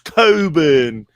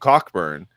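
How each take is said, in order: First: The 'ck' sound in the middle is silent. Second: The 'ck' sound in the middle is pronounced. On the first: "He's like, it's it's Coburn" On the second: "I called him Cockburn"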